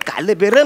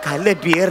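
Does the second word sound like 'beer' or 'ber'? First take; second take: ber; beer. First: The second word is said like 'ber'. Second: The second word is said like 'beer'. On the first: The speaker calls it right. "काल बेर म्हणजे आता जे तुझ्या मनात वाईट विचार" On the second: The speaker calls it wrong. "काल बिअर नाही रे"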